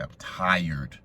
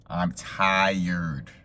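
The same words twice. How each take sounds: First: Said in the usual way. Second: TIRED stretched long for emphasis; drawn-out TIRED. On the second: Real, not acted. Storyteller stressing exhaustion after work, drawn-out TIRED. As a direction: lean hard on "tired" and drag it out.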